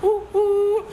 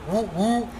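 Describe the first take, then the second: First: It sounds high like a train whistle. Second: It is said in a deep voice. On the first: It comes across as childish, not tough. The speaker calls it wrong. "it sounded like a train" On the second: It comes across as tougher. The speaker calls it right. "give it like a deep"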